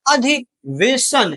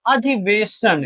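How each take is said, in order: First: अधिवेशन drawn out very slowly, a little higher; slowly spelled out. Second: Said in the usual way. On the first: Shown as a demonstration. Teacher dictating अधिवेशन to students, slow and drawn out. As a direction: stretch each syllable of अधिवेशन.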